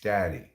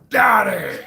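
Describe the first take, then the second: First: It is said in a plain, normal way. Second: It is said harder and more forcefully.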